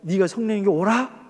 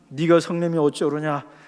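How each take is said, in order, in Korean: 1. 눈물 어린 슬픈 목소리로 읽습니다. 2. 감정 없이 밋밋하게 읽습니다. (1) "눈물이 글썽글썽한 그 목소리로" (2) "그냥 네가 성령이 어쩌느냐 이렇게 읽으면요, 애들 말로 재미 더럽게 없고요"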